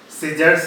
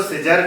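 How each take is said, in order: First: सीजर्स with a final s; correct form. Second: सीजर ending on r, no final s; wrong form. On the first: Teacher giving learners the proper word, सीजर्स ending in s. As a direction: close सीजर्स on an s after the r. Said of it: "सीजर्स है ये शब्द". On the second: Teacher showing learners the form to avoid, सीजर without s. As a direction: say सीजर with the closing s left off. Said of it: "इसको सीजर नहीं बोलेंगे". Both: Shown as a demonstration.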